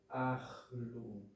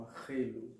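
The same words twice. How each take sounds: First: "ahlu" in two falling syllables; correct pronunciation. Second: "arrelu" in three syllables; wrong pronunciation. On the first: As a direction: say "ahlu" with no vowel after the h. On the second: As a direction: put a stressed e in the middle of "arrelu". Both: Shown as a demonstration. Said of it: "E não arrelu".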